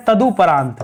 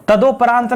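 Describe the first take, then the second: First: तदुपरांत with a short u, ta-du-pa-raant; right form. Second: तदोपरांत with o, ta-do-pa-raant; wrong form. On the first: Teacher to students giving the right form, short du. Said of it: "सही शब्द क्या है". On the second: Teacher to students showing the wrong form, do. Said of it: "तदोपरांत नहीं होता है". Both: Shown as a demonstration.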